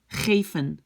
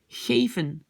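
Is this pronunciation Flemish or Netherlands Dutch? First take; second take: Netherlands Dutch; Netherlands Dutch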